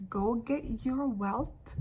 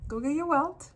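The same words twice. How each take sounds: First: "Go get your wealth" slowed word by word; slow emphasis. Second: Said in the usual way. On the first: Real, not acted. Urging listeners to reclaim wealth, slow and emphatic. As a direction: spell out "your wealth" slowly, ending on a rise. Repeats command slowly for emphasis.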